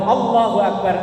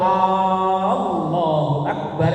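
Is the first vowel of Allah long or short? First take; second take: short; long. First: The first vowel of Allah is short. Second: The first vowel of Allah is drawn out. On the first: It states that God is great. The speaker calls it right. "artinya Allah Maha Besar" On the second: It asks whether God is great. The speaker calls it wrong. "memanjangkan huruf hamzah"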